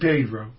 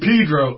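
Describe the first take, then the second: First: It uses the standard, textbook pronunciation of the name. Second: It uses the local townspeople's pronunciation of the name. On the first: The speaker has never been to the town. The speaker calls it wrong. "you don't say Pedro ... even though it's correct" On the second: The speaker knows the town. The speaker calls it right. "You say Pedro"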